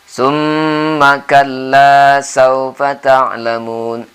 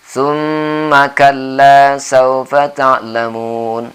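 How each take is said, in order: No difference in how they are said.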